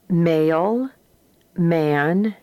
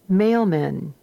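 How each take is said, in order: First: The two syllables are said separately with a break. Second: The two syllables flow together without a break. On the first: "very distinctly as two separate syllables" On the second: "the way we pronounce them in everyday reading"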